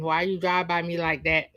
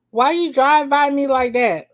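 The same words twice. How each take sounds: First: Said in the usual way. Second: Loud and high, pushing on drive; shouted line. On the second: Acted. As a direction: yell the question, stressing drive. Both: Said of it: "that's how it's written".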